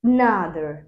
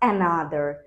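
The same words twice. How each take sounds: First: The first vowel is a weak, reduced schwa. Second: The first vowel is a full, clear vowel. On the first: The speaker calls it right. "এই সাউন্ডটা কিন্তু খুবই কম হয়" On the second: The speaker calls it wrong.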